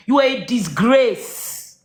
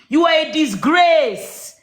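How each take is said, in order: First: Slow, deliberate, cold condemnation; slow contempt. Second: Slow angry outburst. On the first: Telling Mama she is a disgrace, slow and cold. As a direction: spell out each word like a verdict. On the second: Repeating to Mama she is a disgrace, raised and furious. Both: Real, not acted. Repeated insult, second take harder.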